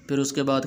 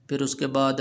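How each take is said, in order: Both takes have the same delivery.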